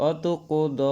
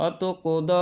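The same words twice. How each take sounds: The two takes are said the same way.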